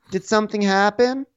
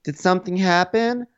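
First: Higher, lifting on something; mock Melissa again. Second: High, fake-innocent question; mock Melissa. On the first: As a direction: push something up, even higher. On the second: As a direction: play dumb, pitched way up. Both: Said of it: "Melissa's like".

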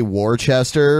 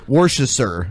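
First: WORCESTER said as "WAR-chester"; Worcester in three full syllables, war-ches-ter; American spelling pronunciation. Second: WORCESTER said as "WOR-shi-ster"; Worcester squashed to wor-shister; attempted British pronunciation. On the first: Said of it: "like we would say". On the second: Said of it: "but it was like". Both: Shown as a demonstration.

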